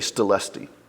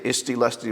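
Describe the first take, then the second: First: The opening vowel is dropped and words merge. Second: The opening vowel is said in full. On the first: "we shorten it today and we just say stilusty" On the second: "People always say isti lusty"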